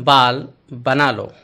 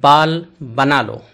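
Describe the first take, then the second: Both takes have the same delivery.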